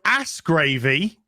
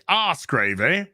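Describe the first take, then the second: First: The first word is said the American way. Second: The first word is said the British way. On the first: The speaker calls it wrong. "it's not correct" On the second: The speaker calls it right. "as the British would say"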